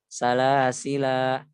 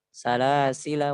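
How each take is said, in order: First: The final vowel is held long at a stop. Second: The final vowel is dropped, running into next word. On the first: The reciter stops on this word. "dibaca panjang alifnya hanya ketika waqaf" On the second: The reciter continues without stopping. "kita wasal ... hilang itu alifnya"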